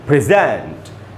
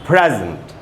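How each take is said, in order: First: The stress is on the second syllable. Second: The stress is on the first syllable. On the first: It is a verb meaning to give something formally. "जब verb था तो हम इसको पढ़ रहे थे present" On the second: It is a noun or adjective meaning gift or present. "जब noun adjective तो हम इसको पढ़ रहे प्रेजेंट"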